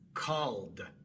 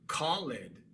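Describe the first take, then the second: First: One syllable, ending in a plain d sound. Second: Two syllables, with the ed ending fully voiced. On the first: This is how it is said today. "la E queda muda y se pronuncia solamente la D" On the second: This is how it was said centuries ago. "Se pronunciaba tanto la E como la D"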